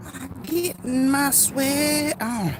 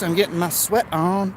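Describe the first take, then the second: First: High, drawn-out silly voice; playful high drawl. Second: Said in the usual way. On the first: Pretend. Streamer joking about working up a sweat, playful high drawl. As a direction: stretch it out slowly, way up high. Playfully repeating his own line.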